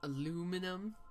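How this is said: It is said with fewer syllables, American style. The speaker calls it wrong. "the way Americans do"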